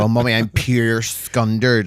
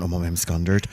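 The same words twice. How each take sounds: First: Pure leaned on, slower and fuller; emphasis on pure. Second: Said in the usual way. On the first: Shown as a demonstration. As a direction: hit the word pure to show how embarrassed. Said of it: "The proper emphasis because they are pure". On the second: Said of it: "instead of saying".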